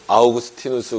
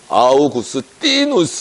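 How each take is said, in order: First: The name is said in a plain Korean way. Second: The name is said in a showy Latin-like way. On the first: This is how the speaker's own group says it. "저희는 뭐 어거스틴 아니면 그 아우구스티누스 그러는데" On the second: The other group is showing off by using the original pronunciation. "원어 발음으로 하자 ... 거기는 아우구스티누스 뭐 이런 식으로 이제 자기는 이제 티를 좀 내고"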